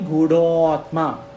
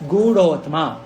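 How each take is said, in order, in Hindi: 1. दोनों शब्द अलग रखे जाते हैं। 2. दोनों शब्द मिलकर एक शब्द बन जाते हैं। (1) "you have to understand it is Gudo Atma" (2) "you have to say Gudotma"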